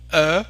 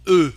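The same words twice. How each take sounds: First: E said as an open rounded "uh", as in peur, loud; open French eu. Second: E said as a tight rounded eu, as at the end of peureux; closed French eu. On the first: Teacher repeating the contrast for learners, open French eu. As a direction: say E as the looser French eu. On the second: Teacher repeating the contrast for learners, closed French eu. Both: Shown as a demonstration. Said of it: "Can you hear the difference?".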